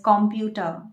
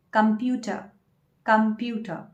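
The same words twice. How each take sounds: First: Computer as KOM-pyoo-tə; wrong pronunciation. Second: Computer as kəm-PYOO-tə; correct pronunciation. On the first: Teacher showing the wrong form, computer as KOM-pyoo-tə. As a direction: computer stressed first. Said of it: "that is not the correct pronunciation". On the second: Teacher giving the correct form, computer as kəm-PYOO-tə. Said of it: "You should say". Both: Shown as a demonstration.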